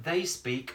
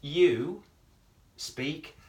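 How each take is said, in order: First: Said in the usual way. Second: "you" punched louder, then "speak" rising; stress on you. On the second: Shown as a demonstration. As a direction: hit the word "you" hard.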